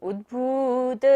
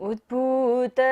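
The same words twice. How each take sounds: Both takes have the same delivery.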